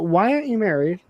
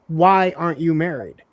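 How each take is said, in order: First: The question sounds friendly and curious. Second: The question sounds challenging and judgmental. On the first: The asker simply wants to know. "the other is like, hey, we've talked a lot" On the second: The asker disapproves of the lifestyle. "one is questioning my lifestyle"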